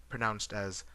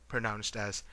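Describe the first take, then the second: Both takes have the same delivery.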